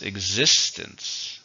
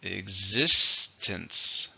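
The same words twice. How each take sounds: First: Existence said slowly, syllables drawn apart; slow teacher model of Existence. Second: Drawn-out demo of Existence; careful slow repeat for learners; slow clear model. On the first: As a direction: stretch out Existence, stress on the second syllable. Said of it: "How many syllables?". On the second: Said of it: "Stresses on the second". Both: Shown as a demonstration.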